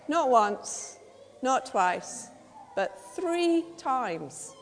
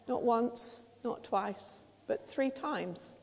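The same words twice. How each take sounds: First: Not, twice and three each punched, three drawn out slowly; emphatic count. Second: Soft and sombre, three dragged slowly; hushed count. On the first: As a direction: build the count: not once, not twice, but three times. Preacher stresses Peter's three questions. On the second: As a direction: drop to a near hush for the denial. Same count, now about Peter's denial. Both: Shown as a demonstration.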